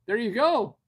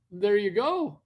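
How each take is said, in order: First: Loud, high praise; a burst of loud, high praise; excited cheer. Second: Loud, high praise again in the same spirit; excited cheer. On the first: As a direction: cheer them on loudly. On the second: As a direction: keep cheering loudly. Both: Real, not acted. Cheering a viewer on.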